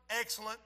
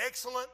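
No difference in how they are said.

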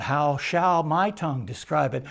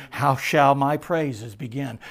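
First: Said in the usual way. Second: Slow, lingering on each word; slow savoring. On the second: Real, not acted. Preacher to congregation, slowly savoring the hymn. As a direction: draw the line out slowly in wonder. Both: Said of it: "That's how I feel".

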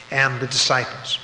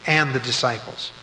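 No difference in how they are said.

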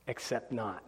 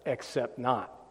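First: Much softer, dropped deadpan retort; sarcastic aside. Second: Dry, softer throwaway undercut; deadpan put-down tossed off quietly; sarcastic aside. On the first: Preacher dismissing opponent's claim, quiet and sarcastic. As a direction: mutter the dismissal under breath. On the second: Preacher mocking the movement's success, dry and sarcastic. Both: Real, not acted.

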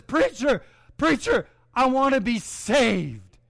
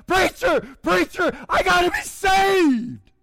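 First: Higher, earnest plea, slowing at the end; a man asking the preacher a second time to save him; eager plea. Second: High, loud cry, slowing on "I gotta be saved"; a sinner crying out to the preacher, desperate. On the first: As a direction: call out to the preacher, hopeful. Jim comes forward second time. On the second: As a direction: shout it from the burden of sin. Jim desperate under conviction. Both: Retold or imitated.

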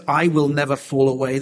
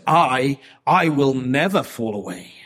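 First: The proud, insistent "I"; emphatic I. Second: "I" repeated and punched loud; the stuttered, boastful "I, I"; emphatic I. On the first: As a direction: stress on "I", pushed out louder. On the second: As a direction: hit "I", then stumble into it again. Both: Retold or imitated. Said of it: "that's an emphatic I in Greek".

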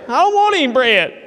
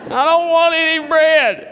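First: High, loud whiny refusal; petulant grown man's whine; whining Ahab. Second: Higher, slow, drawn-out whine; hammed-up petulant wail; more whining Ahab. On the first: Acted. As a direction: pout like a spoiled king. Ahab sulks, refuses dinner. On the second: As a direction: stretch the refusal like a sulking child. Ahab refuses bread again.

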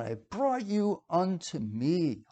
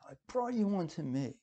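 First: "brought you unto me" drawn out slowly; slow emphatic quote. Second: Much softer "brought you unto me"; softly repeated quote. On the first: Preacher quoting God to the congregation, slow and emphatic. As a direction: stretch "unto me" with deliberate weight. Reciting God's words, then repeating them. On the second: Preacher repeating God's personal words to listeners, softly. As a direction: drop the volume, letting "unto me" settle. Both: Acted.

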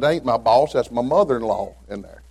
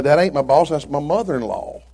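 First: Said in the usual way. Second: Punchier and higher retold line; louder punchline retelling. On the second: Shown as a demonstration. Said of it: "she's fixing to get one".

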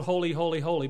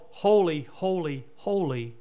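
First: Said in the usual way. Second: Each "holy" set apart with its own falling tone; deliberate repetition. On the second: Shown as a demonstration. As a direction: weigh every "holy" separately, stepping down in pitch. Contrasts song with God's true title.

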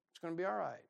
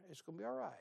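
First: Said in the usual way. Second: Soft reassurance. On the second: Shown as a demonstration. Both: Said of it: "Jonathan's basically saying here".

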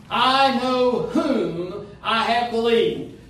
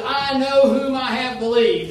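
First: Slow, with "whom" leaned on hard; slow, weighted reading that presses "whom"; stress on whom. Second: Said in the usual way. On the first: Shown as a demonstration. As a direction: dwell on "whom" and draw the verse out. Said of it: "let's emphasize, first of all, whom". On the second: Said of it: "Now let's emphasize".

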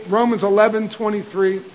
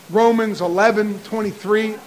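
Both takes have the same delivery.

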